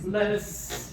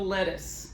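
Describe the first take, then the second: First: A tiny glottal break separates the two words. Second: The two words run together without a break. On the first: The speaker calls it right. "Little tiny, tiny break, not a breath, but just break the word a little bit with those little glottal stops" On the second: The speaker calls it wrong. "Not lettuce"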